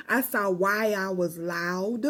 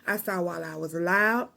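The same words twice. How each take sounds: First: Slow, laughing retake. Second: Said in the usual way. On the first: Shown as a demonstration. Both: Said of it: "Mm-mm, I saw, my bad".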